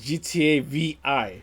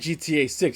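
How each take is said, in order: First: The numeral is spoken as the letters V I. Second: The numeral is spoken as the number six. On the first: The speaker calls it wrong. "He says G T A V I" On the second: The speaker calls it right. "he doesn't say G T A six"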